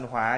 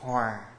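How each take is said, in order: First: The word has a low, heavy, glottalized tone. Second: The word has a low falling tone. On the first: It means fire or anger. "dấu nặng" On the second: It means to be in harmony. "là dấu huyền"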